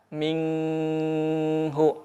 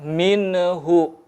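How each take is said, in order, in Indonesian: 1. Huruf n ditahan dengan dengung sengau. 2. Huruf n dilepas dengan gema memantul. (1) "tidak menahan ... ikhfa, atau gunnah" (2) "hindari memantul"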